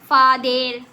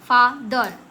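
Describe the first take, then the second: First: The last syllable has a clear 'e' vowel. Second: The last syllable has a weak 'uh' vowel. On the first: The speaker calls it wrong. "तो क्या हमने ऐसे पढ़ा फादेर, फादेर पढ़ा नहीं ना" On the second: The speaker calls it right. "तो ई का प्रोनाउंस करेंगे अ से"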